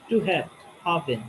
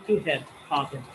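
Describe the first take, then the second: No difference in how they are said.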